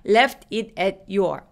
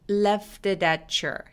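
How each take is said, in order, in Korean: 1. 각 단어는 따로 발음해요. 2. 단어들이 한 흐름으로 이어져 발음돼요. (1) "아니고" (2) "전부 다 연결해서 소리가 나는데"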